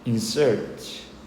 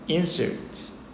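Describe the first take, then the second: First: The stress is on the second syllable. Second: The stress is on the first syllable. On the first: It is used as a verb. "동사할 때는 강세가 뒤에 있습니다" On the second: It is used as a noun. "명사라면 강세가 앞에 있고요"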